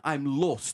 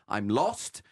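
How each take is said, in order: First: "lost" with a closed O, like "lohst"; Queen Elizabeth II. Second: "lost" with an open British O; ordinary English "lost", vowel open. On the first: Retold or imitated. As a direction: imitate royal "lost", vowel narrowed as in French "nôtre". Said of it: "utiliser un O fermé". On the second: Shown as a demonstration. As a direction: say "lost" slowly, O wide open. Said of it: "avec un O ouvert".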